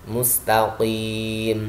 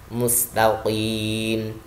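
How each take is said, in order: Both takes have the same delivery.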